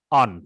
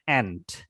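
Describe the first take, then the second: First: It is said with a British vowel, unlike 'ant'. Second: It is said with an American vowel, like 'ant'. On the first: The speaker calls it right. "Kalau orang Inggris, mau cara membacanya aunt ya" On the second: The speaker calls it wrong. "Kalau orang Amerika, cara membacanya aunt ya"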